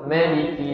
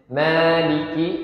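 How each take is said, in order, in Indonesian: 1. Vokal pertama dibaca pendek. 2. Vokal pertama dibaca panjang. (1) "boleh uh, pendek" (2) "ma-nya bisa ma boleh panjang"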